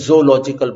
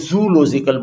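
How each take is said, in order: First: "zoological" with separated O's, zo-ological; correct pronunciation. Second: "zoological" with "zoo" run together as one syllable; mispronunciation. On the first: Teacher showing how it should be said, "zoological" pronounced zo-ological. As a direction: begin "zoological" with zo, not zoo. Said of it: "तो ऐसे zoological बोलना चाहिए". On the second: Showing students what people commonly say, mispronounced "zoological" as zoo-logical. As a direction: say "zoological" starting like the word zoo. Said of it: "pronounce the first three letters of these words in one syllable".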